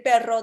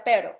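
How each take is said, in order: First: Perro with a rolled double R; trilled R. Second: Pero with one light tap for the R; single-tap R. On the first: Host gives the word a child should say, trilled R. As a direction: say "perro" with the full tongue-tip trill. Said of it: "en vez de decir perro". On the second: Host gives a child's substitute word, tapped R. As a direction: say "pero" with the tongue just touching once, no trill. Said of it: "diga pero". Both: Shown as a demonstration.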